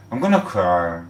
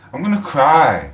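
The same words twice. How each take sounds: First: Said in the usual way. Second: Choked-up outburst, higher and louder; about to cry. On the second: Real, not acted. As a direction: suddenly overcome with emotion.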